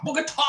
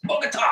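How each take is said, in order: First: Bogota shouted high, the final A hit hard; Bogota with punched A. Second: Said in the usual way. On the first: Shown as a demonstration. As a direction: bark Bogota with the stress slammed on the A. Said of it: "You have to express the A like". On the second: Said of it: "That's what it means".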